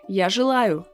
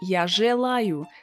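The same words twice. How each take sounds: First: The vowel after zh is a short y sound. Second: The vowel after zh is a clear e sound. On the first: "so it's a very short «ы»" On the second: "I don't say «я желаю»"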